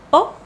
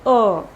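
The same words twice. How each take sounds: First: O as a very brief schwa "uh"; short vowel. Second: O held as a clear, longer "uh"; clear, longer vowel. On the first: Teacher contrasting two vowel lengths, short O. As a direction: cut the O short. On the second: Teacher contrasting two vowel lengths, clear longer O. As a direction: let the O sound out fully. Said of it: "and this is clear". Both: Shown as a demonstration.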